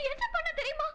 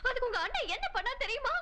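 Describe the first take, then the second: First: Insistent repeat. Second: Said in the usual way. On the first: Acted. Wife pressing her husband with the same question, higher.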